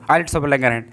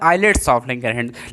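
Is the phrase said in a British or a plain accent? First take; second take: plain; British. First: It is said in a plain, unaffected accent. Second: It is said in a put-on British accent. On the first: "तुम direct ऐसे बोलो" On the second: "British language में मैं कभी कभी बोलता"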